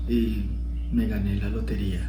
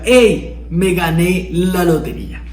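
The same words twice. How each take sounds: First: Low, soft and lifeless; flat, deflated. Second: Excited. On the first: Teacher demos a joyless lottery win, low and soft. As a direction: say it like it means nothing. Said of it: "No es lo mismo que te diga". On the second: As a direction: burst out with the good news. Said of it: "a que te diga". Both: Shown as a demonstration.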